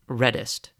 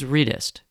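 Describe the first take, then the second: First: The first vowel is a short E sound. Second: The first vowel is a long E sound. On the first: The speaker calls it wrong. "People call my company Redist" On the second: The speaker calls it right. "R, long E, then Dist"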